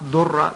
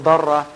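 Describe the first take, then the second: First: The first vowel sounds like 'u'. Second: The first vowel sounds like 'a'. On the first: The speaker calls it wrong. "sometimes mispronounced durra" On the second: The speaker calls it right. "but it's actually a darra"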